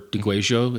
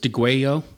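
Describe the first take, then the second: First: The word is said with Argentine pronunciation. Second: The word is said without Argentine pronunciation.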